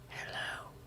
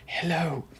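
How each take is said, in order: First: It is said in a soft, whispery ASMR voice. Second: It is said in a normal speaking voice.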